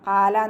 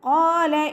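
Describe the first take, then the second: First: The first consonant is light, without raising. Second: The first consonant is heavy and raised. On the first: The speaker calls it wrong. "ഖാല ഖാല എന്നായി പോവരുത് കേട്ടോ" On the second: The speaker calls it right. "നല്ലോണം ഉയർത്തിയിട്ട് ഉച്ചരിക്കുക"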